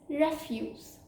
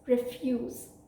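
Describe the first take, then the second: First: The stress is on the first syllable. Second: The stress is on the second syllable. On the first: It means waste or garbage. "which means waste or garbage" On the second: It means to deny. "which means to deny"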